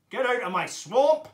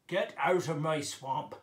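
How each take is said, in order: First: Very loud, higher ogre roar; Shrek. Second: Loud ogre from the belly; troll or ogre voice. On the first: Ogre driving someone off the swamp, full shout. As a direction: bellow it, rising on the last word. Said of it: "Can you do a Shrek impression?". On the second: Ogre ordering someone out of the swamp, belly voice. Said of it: "You might be like this". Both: Shown as a demonstration.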